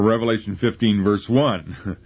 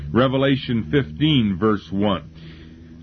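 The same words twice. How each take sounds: First: The number one carries strong emphasis. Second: The number one carries no special emphasis. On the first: The speaker calls it right. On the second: The speaker calls it wrong.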